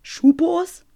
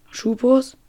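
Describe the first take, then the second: First: Much higher, disbelieving rise on Schupos; incredulous. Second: Said in the usual way. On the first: Shown as a demonstration. (ungläubig, hoch fragend)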